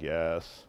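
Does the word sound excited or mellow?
mellow. The word is said in a calm, low-energy way. The speaker is calm and relaxed. "If they're a little mellow, they're like"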